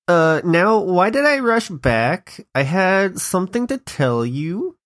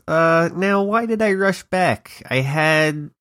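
First: It is said in a put-on Valley Girl voice. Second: It is said in a plain, normal voice.

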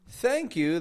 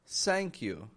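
First: Thank begins with a soft TH sound. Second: Thank begins with a sound close to S. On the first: The speaker calls it right. "instead of saying thank you" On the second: The speaker calls it wrong. "Making an S sound"

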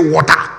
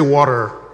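First: The word is said in a Nigerian accent. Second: The word is said in an American accent. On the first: "If you are in Nigeria, you say water" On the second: "If you are in America, you say water"

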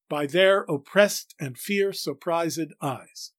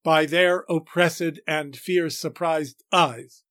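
First: The first -ed is silent, the second is voiced. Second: The line has only four stressed beats. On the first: The speaker calls it right. "If we elide the first ED, that is, don't pronounce it as a syllable, and pronounce the second as a syllable, we get it right" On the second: The speaker calls it wrong. "Only 4 feet"

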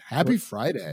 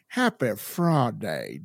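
First: It is said in the speaker's ordinary accent. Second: It is said in a put-on Southern US accent.

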